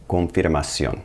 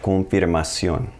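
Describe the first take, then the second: First: Confirmación repeated, tapped r, stress on ó; Spanish pronunciation. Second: Confirmación slowly, tapped r, stress on ó; slow teacher demo of confirmación; slow Spanish pronunciation. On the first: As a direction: say confirmación once more. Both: Shown as a demonstration. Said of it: "confirmation becomes".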